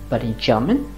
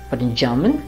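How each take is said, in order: The two takes are said the same way.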